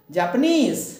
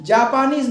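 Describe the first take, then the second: First: Japanese with नीज high and stressed; stress on last syllable. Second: Japanese slowly with loud, long जापा; wrong early stress. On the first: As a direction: hurry to a strong नीज in Japanese. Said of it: "इसके ऊपर जोड़ देंगे". (Japanese में नीज पर ज़ोर) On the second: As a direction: stretch and punch the front of Japanese. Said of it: "Japanese नहीं". (Japanese में जापा पर ज़ोर) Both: Shown as a demonstration.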